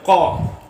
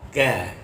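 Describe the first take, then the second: First: The consonant is made further back in the mouth. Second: The consonant is made further forward in the mouth. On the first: The speaker calls it wrong. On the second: The speaker calls it right.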